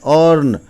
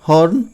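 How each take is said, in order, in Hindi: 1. यह शब्द बिना 'h' की आवाज़ के शुरू होता है। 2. यह शब्द 'h' की आवाज़ से शुरू होता है। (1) "एच साइलेंट करते हैं" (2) "अब यदि इसको हॉर्न पढ़िएगा"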